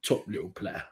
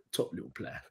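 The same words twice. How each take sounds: First: Said in the usual way. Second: Whispered echo. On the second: Shown as a demonstration. Echoing his own praise of the midfielder, whispered. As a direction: whisper "Top little player." softly, breathy, no voice.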